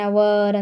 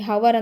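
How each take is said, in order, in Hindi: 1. शब्द की शुरुआत एक स्वर से होती है, इसमें h नहीं है। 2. शब्द की शुरुआत में एक सुनाई देने वाली h ध्वनि है। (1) "ಆ್ಯನ್ ಅವರ್ ಅಂಥೇಳಿ ಓದ್ತೀವಿ" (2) "ಹವರ್ ಅಂದರೆ ತಪ್ಪು"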